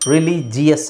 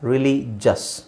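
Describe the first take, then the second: First: The word has four syllables, with a separate 'i' sound. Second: The word has three syllables, ending in a short vowel. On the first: The speaker calls it wrong. "ರಿಲಿಜಿಯಸ್ ಅಲ್ಲ" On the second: The speaker calls it right.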